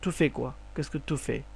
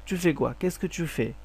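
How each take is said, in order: First: 'Tu' begins with a plain 't' sound. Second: 'Tu' begins with a 'ch'-like sound. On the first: "অথবা তু বলতে পারেন" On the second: "চু চুফে কোয়া কেসকে চুফে, এটা হচ্ছে রিয়েল প্রনাউন্সিয়েশন"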